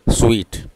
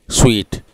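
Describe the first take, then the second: Both takes have the same delivery.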